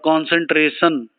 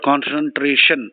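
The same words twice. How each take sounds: First: The sh sound is replaced by another sound. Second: The final syllable has a clear sh sound. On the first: "or concentration instead of" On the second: "instead of concentration"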